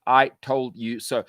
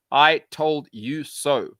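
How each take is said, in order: First: Slow, savoured "I told you so". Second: Slow, drawn-out "I told you so". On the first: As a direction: draw out "I told you so" with relish. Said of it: "I certainly know how to say". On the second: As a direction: savour every word of "I told you so" slowly. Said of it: "two words that I love". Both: Shown as a demonstration.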